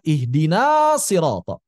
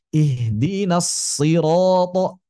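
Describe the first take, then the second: First: The s sound is short and single. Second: The s sound is held long and doubled. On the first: The speaker calls it wrong. "Jangan dibaca" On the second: The speaker calls it right. "tapi ditasydidkan"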